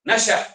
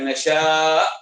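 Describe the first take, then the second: First: The vowel before the final stop is short. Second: The vowel before the final stop is drawn out. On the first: The speaker calls it right. "baca lajulah" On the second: The speaker calls it wrong.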